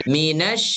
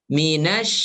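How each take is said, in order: No difference in how they are said.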